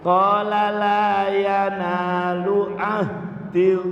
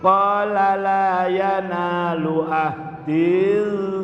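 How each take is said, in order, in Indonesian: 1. Vokal akhir pada ahdi dibaca pendek. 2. Vokal akhir pada ahdi dibaca panjang.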